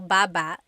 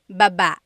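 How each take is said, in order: First: The stress is on the first syllable. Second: The stress is on the second syllable.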